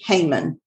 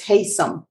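First: The name ends with a 'man' sound. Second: The name ends with a 'som' sound. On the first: The speaker calls it wrong. "No, it's not how you say their name" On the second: The speaker calls it right. "It's Haysom"

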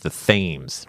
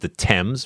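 First: Thames is pronounced just as it is spelled. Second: Thames is pronounced the English way, not as spelled. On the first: This is the local name chosen in defiance of England. "let's pronounce it the way it's spelled" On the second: This is the name used by the country being broken away from. "This isn't the Thames. We don't call it that"

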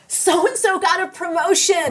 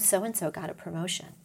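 First: It is said in a warm, delighted tone. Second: It is said in a grudging, envious tone. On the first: The speaker celebrates the other person's success. The speaker calls it right. "How awesome is that?" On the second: The speaker resents the other person's success. The speaker calls it wrong. "See the tone?"

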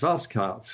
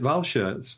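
First: The name is pronounced in a Belgian style. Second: The name is pronounced in a German style. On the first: The speaker calls it right. "Sven is telling us it's Walskards" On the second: The speaker calls it wrong. "we've always made it German and called it Walschaerts"

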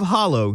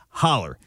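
First: The word ends in an 'oh' sound. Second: The word ends in an 'er' sound. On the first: This is the standard form of the word. "Instead of hollow" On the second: This is the local regional form of the word. "you get holler"

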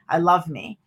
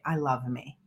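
First: The phrase is screamed loudly. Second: The phrase is said softly and gently. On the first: The speaker calls it wrong. "you have to scream at the top of your lungs" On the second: The speaker calls it right. "I need to be softer"

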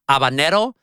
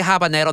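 First: The word starts with no h sound. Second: The word starts with an audible h sound. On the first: "if an H is a first letter in a word in Spanish, you don't pronounce it. So technically it's habanero" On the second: "But if you say habanero, that's fine"

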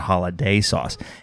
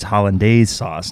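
First: The first word is said without an n sound. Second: The first word is said with an n sound. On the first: The speaker calls it wrong. "not holiday sauce" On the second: The speaker calls it right. "it's hollandaise sauce"

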